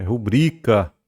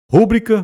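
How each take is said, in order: First: "rubrica" slowly, stretched on BRI; "rubrica" falling, stressed on the middle syllable; correct middle-syllable stress. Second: "Rúbrica" high and loud on RÚ; "Rúbrica" as RÚ-bri-ca; wrong first-syllable stress. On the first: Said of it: "Ela é uma paroxítona". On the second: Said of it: "É rubrica". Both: Shown as a demonstration.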